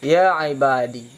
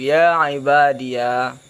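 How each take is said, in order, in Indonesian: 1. Kata ini berakhir dengan vokal i pendek. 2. Kata ini berakhir dengan suku kata ya tambahan. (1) "membuangkan ya mutakallim dan memadakan mudhaf munada tersebut dengan kasrah" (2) "menyebutkan ya hal keadaan difathahkan"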